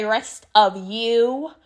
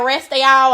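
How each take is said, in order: First: "rest of you" drawn out slowly and properly. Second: "rest of y'all" louder, Southern y'all; slangy y'all. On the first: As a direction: say "rest of you" slow and prim. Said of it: "have to say "rest of you," not "rest of y'all". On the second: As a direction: punch "y'all" with Southern twang. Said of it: "not "rest of y'all". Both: Shown as a demonstration.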